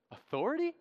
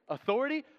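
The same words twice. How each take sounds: First: A high, amused disbelieving "Authority?"; incredulous echo. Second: "Authority?" lifted high and quick through a laugh; laughing incredulous echo. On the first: John scoffing at the priests' question about authority, amused. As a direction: toss the word back as if it were absurd. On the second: Preacher replaying John's laughing reply to the priests. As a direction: laugh the word back at them. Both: Acted.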